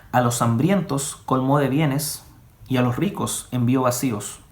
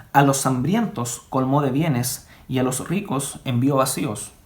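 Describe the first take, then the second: The two takes are said the same way.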